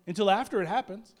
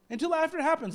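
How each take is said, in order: First: Said in the usual way. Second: Happens pitched higher and punched; stress on happens. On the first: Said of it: "repeated for emphasis". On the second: Shown as a demonstration. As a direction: lift and hit happens. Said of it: "repeated higher".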